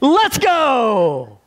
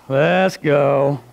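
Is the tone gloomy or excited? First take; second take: excited; gloomy. First: It is said eagerly and excitedly. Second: It is said gloomily, like Eeyore.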